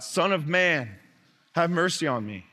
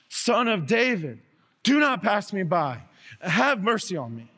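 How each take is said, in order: First: A beggar calling out, only slightly raised; lightly voiced plea from the roadside; mild call for mercy. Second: Animal-like wailing cry. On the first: Blind beggar calls to Jesus, mild call. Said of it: "and he yells out". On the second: Acted. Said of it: "like an animal crying out all the more".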